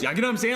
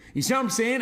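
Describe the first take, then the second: First: It is spoken quickly and casually. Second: It is spoken slowly and calmly.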